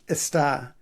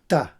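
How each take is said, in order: First: The word is said in full, three clear sounds. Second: The word is clipped to a single short syllable. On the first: "so is está" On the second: "it pronounces it está or ta"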